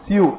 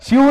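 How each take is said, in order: First: Short "स्यू", s plus y-glide; one quick syllable, "स्यू"; corrected pronunciation. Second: Mock the mistaken "स्यू", stretched towards "shyoo"; wrong pronunciation. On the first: Shown as a demonstration. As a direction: model "स्यू" crisply as "syoo". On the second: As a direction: exaggerate "स्यू", long and raised. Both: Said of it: "स्यू नहीं रे".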